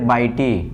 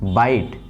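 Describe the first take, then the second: First: The word ends with an extra 'ee' vowel. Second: The word ends on the 't' consonant. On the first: The speaker calls it wrong. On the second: The speaker calls it right.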